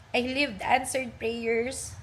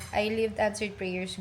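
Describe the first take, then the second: First: Slow, emotional reading with a catch; close to tears. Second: Said in the usual way. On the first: Real, not acted. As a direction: read it slowly, holding back tears. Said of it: "Di ba, naiiyak na ako? Binabasa ko lang". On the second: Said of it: "Ano, um".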